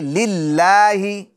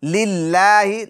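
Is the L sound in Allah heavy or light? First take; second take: light; light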